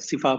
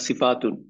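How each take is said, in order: First: The word ends on a plain vowel. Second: The word ends with a t and -un. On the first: The speaker stops at this word. "যখন ওয়াকফ করা হয় তখন কি বলা হয়? সিফা বলি আমরা" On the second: The speaker carries on to the next word. "এমনি যদি আমি কন্টিনিউ করে যেতাম তখন হচ্ছে সিফাত বা সিফাতুন"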